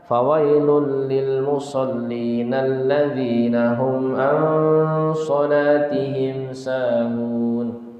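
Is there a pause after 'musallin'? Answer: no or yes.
no. It is read straight through without a pause. "Jadi tidak ada wakofnya, disambung"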